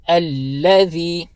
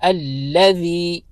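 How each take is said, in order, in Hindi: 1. बीच का व्यंजन नरम 'थ' की आवाज़ है। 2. बीच का व्यंजन नरम 'थ' की आवाज़ है।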